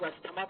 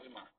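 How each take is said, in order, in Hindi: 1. बीच में साफ़ 'st' की आवाज़ है। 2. बीच में 'z' की आवाज़ है, 't' नहीं। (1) "इसको लोग अस्थमा पढ़ते हैं" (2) "सही उच्चारण क्या होता है?"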